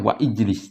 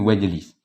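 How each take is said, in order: First: The glottal stop before ijlis is pronounced separately. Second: The glottal stop is dropped and the words merge. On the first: The speaker calls it wrong. "Tidak kita baca wa ijlis" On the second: The speaker calls it right. "tapi wajlis. Karena hamzah wasal"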